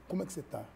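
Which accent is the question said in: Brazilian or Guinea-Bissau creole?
Brazilian. Said in an everyday Brazilian Portuguese accent. "aqui eu falo"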